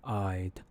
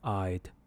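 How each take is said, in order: No difference in how they are said.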